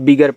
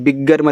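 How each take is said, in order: First: The g sound is said only once. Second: The g sound is said twice. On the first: The speaker calls it right. "गा का उच्चारण एक ही बार" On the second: The speaker calls it wrong. "बिगर मत पढ़िएगा"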